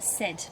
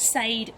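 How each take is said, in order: First: The vowel sounds like 'eh', as in 'bed'. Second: The vowel sounds like 'ay', as in 'made'. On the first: The speaker calls it right. "but said" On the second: The speaker calls it wrong. "Not sade"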